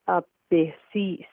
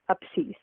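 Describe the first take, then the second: First: The word is said slowly and carefully. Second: The word is said quickly and fluently. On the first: "the slow pronunciation" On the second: "the fluent pronunciation"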